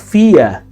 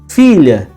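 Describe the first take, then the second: First: The middle consonant is a plain Y sound. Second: The middle consonant is a palatal L sound. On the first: This is the non-standard pronunciation. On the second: This is the standard pronunciation.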